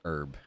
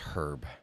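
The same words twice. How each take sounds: First: The word starts without an H sound. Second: The word starts with an H sound. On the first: The speaker calls it wrong. "It's not herb" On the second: The speaker calls it right. "the H isn't silent"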